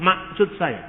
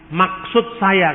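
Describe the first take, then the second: First: "maksud saya" with the middle k swallowed, like "masud"; "maksud saya" tanpa bunyi k di tengah; Batak dropped k. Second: "Maksud saya" slowly, with a crisp, firm k in "Maksud"; "Maksud saya" pelan, k di tengah tegas; crisp middle k. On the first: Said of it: "kan orang Batak nggak ngomong". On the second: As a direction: spell out "Maksud saya" with a hard, clear k in the middle. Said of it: "sulit untuk mengatakan huruf K di tengah. Tegas". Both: Shown as a demonstration.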